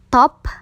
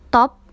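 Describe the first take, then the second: First: The final p ends with a puff of air. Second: The final p ends without a puff of air. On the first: "P diakhiri dengan H" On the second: "cara baca biasa"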